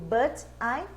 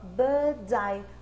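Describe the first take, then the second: First: The words are said separately. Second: The words are linked into one sound.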